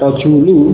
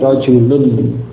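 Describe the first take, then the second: First: The word ends in a vowel without n. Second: The word ends with an added n sound. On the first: The speaker calls it wrong. "bukan sekedar rajulu" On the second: The speaker calls it right. "tetapi rajulun"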